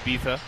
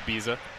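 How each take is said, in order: First: The middle consonant is a th sound. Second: The middle consonant is an s/z sound. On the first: "In Spain, they pronounce those as a TH" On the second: "Everyone says Ibiza"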